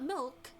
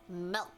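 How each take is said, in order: First: The vowel does not sound like elk. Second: The vowel sounds like the one in elk. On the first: The speaker calls it wrong. "Not milk" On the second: The speaker calls it right. "Because I say milk. Like elk, but with M"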